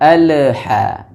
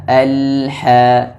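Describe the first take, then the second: First: The l sound bounces with an echo. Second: The l sound is held smoothly without bouncing. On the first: The speaker calls it wrong. "jangan dibaca memantul" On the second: The speaker calls it right. "tapi dibaca"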